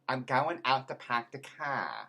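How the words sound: It is said in a Cockney accent.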